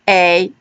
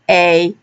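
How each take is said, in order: First: The vowel is long, like the letter name. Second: The vowel is long, like the letter name.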